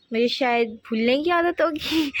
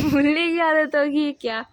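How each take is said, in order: First: Said in the usual way. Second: Slow, amused doubt on आदत; teasing self-question. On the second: Shown as a demonstration. Teasing herself to viewers about forgetting, amused. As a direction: drag out "आदत" and ask it of yourself.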